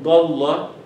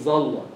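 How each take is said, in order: First: The first consonant is an emphatic d sound. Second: The first consonant is a z sound. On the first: The speaker calls it right. "Dad is like in Dalla" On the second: The speaker calls it wrong. "you cannot say it Zalla"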